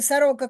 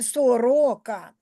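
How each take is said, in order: First: The unstressed o is reduced to an a sound. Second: Every vowel is pronounced clearly as written o. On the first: This is the Russian pronunciation. "Якщо російською сорока кажу, то я а вимовляю" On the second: This is the Ukrainian pronunciation. "А якщо українською сорока, я вимовляю всі звуки чітко"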